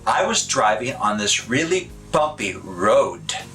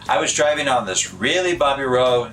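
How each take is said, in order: First: The final D of road is clearly released. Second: The final D of road is barely pronounced. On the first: The speaker calls it right. "Instead of" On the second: The speaker calls it wrong. "we might say"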